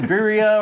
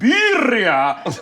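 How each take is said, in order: First: It is said in a plain English accent. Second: It is said with an exaggerated Spanish accent. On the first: The speaker uses their own natural way of talking. The speaker calls it right. "just say it with the way you sound" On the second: The speaker is putting on a foreign sound. The speaker calls it wrong. "trying to put an accent or a stank on it"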